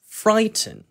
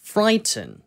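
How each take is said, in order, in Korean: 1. t 소리가 분명한 영국식 억양이에요. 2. t 소리가 분명한 영국식 억양이에요.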